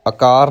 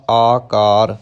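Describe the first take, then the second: First: ਆਕਾਰ begun with a short, quick uh, as akaar; short first vowel. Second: ਆਕਾਰ with a long, held aa at the start; long first vowel. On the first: Teacher shows learners the mistake, ਆਕਾਰ with short first vowel. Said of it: "ਆਕਾਰ ਨਹੀਂ ਕਹਿਣਾ". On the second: Teacher models the word for learners, long first aa in ਆਕਾਰ. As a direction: stretch the opening vowel of ਆਕਾਰ. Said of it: "ਐੜੇ ਨੂੰ ਕੰਨਾ ਲਾ ਕੇ ਉਚਾਰਨ". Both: Shown as a demonstration.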